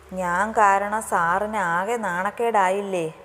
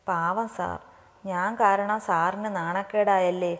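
First: Slow, drawn-out plea of guilt; a touch of tearful protest; upset, tearful. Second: Slow, understated self-reproach; mildly guilty inner thought, slowly; troubled, regretful. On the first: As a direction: drag out the self-blame, mildly upset. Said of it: "നീ എന്തിനാ കരയുന്നത്". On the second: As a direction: feel sorry for him, dragging the words. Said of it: "ആര്യയ്ക്ക് അതിയായ വിഷമം തോന്നി". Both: A narrator's reading.

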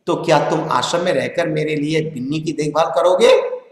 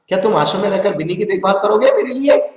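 First: A gentle, softened ask from Gandhi; lovingly. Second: Said in the usual way. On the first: A narrator's reading. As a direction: ask it tenderly, like a kind elder. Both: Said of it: "Gandhi जी ने प्यार से बोला".

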